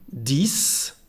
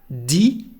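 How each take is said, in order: First: It ends with an audible s sound. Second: It ends on the vowel with no s. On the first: The number stands alone. "this is the way we pronounce when the number ten is alone" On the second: The number comes before another word. "is pronounced di"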